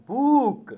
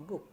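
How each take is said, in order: First: "book" stretched to a long oo; long vowel. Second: "book" with a short, quick u; short vowel. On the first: Teacher showing pupils what to avoid, long drawn-out "book". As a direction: draw out the oo in "book", higher. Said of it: "not as book". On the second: Teacher showing pupils the correct sound, short soft "book". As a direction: keep the oo in "book" brief and soft. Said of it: "should be pronounced as book". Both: Shown as a demonstration.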